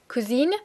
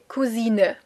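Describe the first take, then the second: First: The final vowel is silent, as in French. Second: The final vowel is clearly pronounced at the end. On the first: The speaker calls it wrong. "we don't say cousine" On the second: The speaker calls it right. "We do pronounce the final E"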